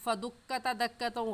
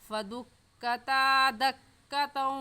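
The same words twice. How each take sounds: First: The vowel after ta is cut short. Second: The vowel after ta is drawn out long. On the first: The speaker calls it wrong. "गलत है" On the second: The speaker calls it right. "सही है"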